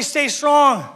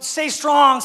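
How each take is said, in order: First: High call for a response; raised, held-out rallying call; prompting the crowd. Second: High, raised-voice rallying cry; sustained high exhortation; rallying call. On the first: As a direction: lead the congregation in a chant. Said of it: "Someone say, "Stay strong". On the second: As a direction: call it out to the crowd. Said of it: "Someone say". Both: Acted.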